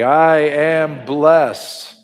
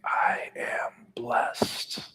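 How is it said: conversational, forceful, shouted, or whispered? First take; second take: forceful; whispered. First: It is said firmly with strong, confident emphasis. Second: It is whispered with breath, no full voice. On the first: "Can you say it with conviction?" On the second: "Can you whisper it with your mouth and your breath?"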